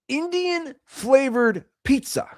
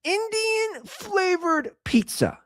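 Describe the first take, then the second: First: High, slow mock disbelief; mock incredulous. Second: Much higher, slower Indian flavored pizza; hammed-up disbelief on the repeat; incredulous repeat. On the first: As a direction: say it like it can't be real. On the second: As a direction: drag it out in mock horror. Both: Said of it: "Let me repeat that".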